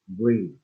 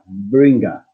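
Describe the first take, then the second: First: The final g is soft, with no added vowel. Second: An extra vowel sound follows the final g. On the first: The speaker calls it right. "You have to pronounce the G, but very softly" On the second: The speaker calls it wrong. "Not bringa"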